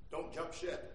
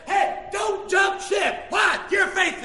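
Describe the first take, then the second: First: Low, soft plea; hushed counsel. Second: Loud, high, slow exhortation; preaching shout. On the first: Preacher to someone who just lost their job, hushed counsel. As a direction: urge it quietly from the pulpit. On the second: Preacher urging a wronged spouse to hold on, preaching shout. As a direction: punch out each word from the pulpit. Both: Real, not acted.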